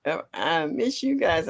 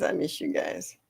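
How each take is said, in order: First: Said in the usual way. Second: Soft, lower whispered repeat. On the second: Real, not acted. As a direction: breathe it out tenderly. Says it twice, second whispered.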